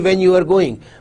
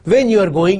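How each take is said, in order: First: It is said plainly, without stress on when. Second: It is said with clear stress on when. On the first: It is a plain statement. "if this sentence is spoken plainly" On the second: It is a question. "You put stress on when"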